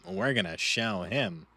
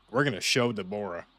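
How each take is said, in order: First: Slow, menacing vow with a put-on timbre; ominous threat. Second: Said in the usual way. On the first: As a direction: growl it out like a villain promising revenge. Repeats the hype line.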